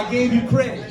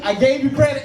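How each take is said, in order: First: Plead, leaning on "you"; mock appeasing the AI. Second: Insist, leaning on "credit"; mock insistent plea to the AI; pleading with AI. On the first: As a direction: stress on "you" in "I gave you credit". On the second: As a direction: stress on "credit" in "I gave you credit", a bit louder. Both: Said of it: "All right, A I".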